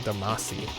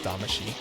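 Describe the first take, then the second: First: The middle consonant is an s sound. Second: The middle consonant is an sh sound. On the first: This follows the English spelling. The speaker calls it wrong. "it's spelled like you would say Damasi" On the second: This follows the Japanese pronunciation. The speaker calls it right. "I think it's actually pronounced Damashi, like the way the Japanese would say it"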